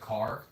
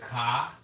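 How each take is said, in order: First: The final R sound is pronounced. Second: The final R sound is dropped. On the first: "not the car" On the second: "they like to take the R's out"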